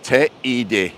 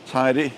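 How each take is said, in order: First: Every letter of the name is sounded separately. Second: The name is said to rhyme with 'lady'. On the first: "in Spanish you have to pronounce every letter" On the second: "I heard it rhymes with lady"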